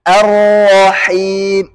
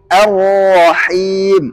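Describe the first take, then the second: Both takes have the same delivery.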